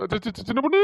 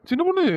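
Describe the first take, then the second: First: A husband nervously stammering his wife's pet name. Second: சின்ன பொண்ணு said much higher, a sweet pleading rise; husband sweet-talking his wife out of the lice chore; coaxing plea. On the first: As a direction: stumble on சி- three times before சின்ன பொண்ணு. Husband stammers before the wife. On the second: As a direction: wheedle her with a high, sugary call. The same words repeated, now coaxing. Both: Acted.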